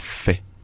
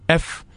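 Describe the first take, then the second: First: The letter is said as 'fay'. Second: The letter is said as 'eff'. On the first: This is the Kikongo letter name. "on prononçait fait" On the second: This is the French letter name. "nous on ne prononçait pas comme ça"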